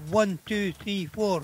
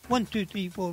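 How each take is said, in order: First: The numbers are counted slowly. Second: The numbers are counted fast.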